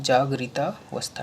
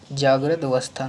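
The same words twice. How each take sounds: First: जागृता with long aa running into avastha; corrected form. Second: जागृत ending on a t, no final vowel; wrong form. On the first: Teacher corrects students, jagrita-vastha as one word. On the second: Teacher shows the error, जागृत cut at the t. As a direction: end जागृत on the consonant before अवस्था. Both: Shown as a demonstration. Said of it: "नहीं".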